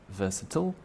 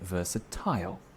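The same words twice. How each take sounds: First: It is said in a non-British accent. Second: It is said in a British accent.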